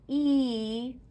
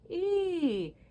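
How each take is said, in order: First: The E vowel sounds flat and spread. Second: The E vowel sounds tall and open. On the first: The speaker calls it wrong. "not E" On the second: The speaker calls it right. "we want a tall E"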